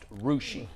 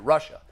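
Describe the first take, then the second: First: The word ends in an 'ee' sound. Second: The word ends in an 'uh' sound. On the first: The speaker calls it right. "it's pronounced Rushi" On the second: The speaker calls it wrong. "I pronounced it Russia"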